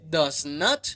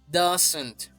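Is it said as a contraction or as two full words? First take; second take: two words; contraction. First: It is said as two separate full words. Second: It is said as one contracted word. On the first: "De does not" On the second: "pasaremos a doesn't"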